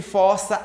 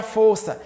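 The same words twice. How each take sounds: First: Força with an open "ó", as in "fórça". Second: Força with a closed "ô", as in "fôrça". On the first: Teacher showing the verb in "força a barra", open O in força. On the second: Teacher showing the noun in "possui a força", closed O in força. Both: Shown as a demonstration. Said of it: "a homografia".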